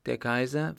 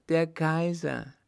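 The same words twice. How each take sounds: First: KAISER lifted in a rising question; questioning echo. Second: High, loud, slow cry of joy; jubilant exclamation. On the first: Mother doubts her daughter's news, "Der Kaiser?" as a rising question. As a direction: ask back "Der Kaiser?", higher, with a rise on Kaiser. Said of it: "frug die Frau". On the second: Girl announces the Emperor to her mother, jubilant. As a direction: proclaim it jubilantly, drawing out KAISER. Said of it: "rief jubelnd aus". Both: A narrator's reading.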